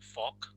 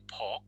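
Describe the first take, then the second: First: The word begins with an f sound. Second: The word begins with a p sound. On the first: "some say f, f" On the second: "Some people would use the ph"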